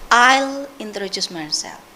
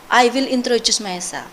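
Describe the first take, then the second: First: The word will is contracted to I'll. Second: The word will is said in full. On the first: The speaker calls it right. "Usually we will say" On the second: The speaker calls it wrong. "usually we don't say"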